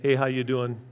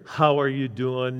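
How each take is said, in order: First: The greeting sounds quick and casual. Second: The greeting sounds warm and sincere.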